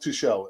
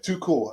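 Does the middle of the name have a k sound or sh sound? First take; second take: sh sound; k sound. First: The middle consonant is a soft sh sound. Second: The middle consonant is a hard k sound. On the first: It follows a French-style pronunciation. The speaker calls it wrong. "not too shell" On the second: It follows the German pronunciation. The speaker calls it right. "it's pronounced her too cool. Yeah, too cool"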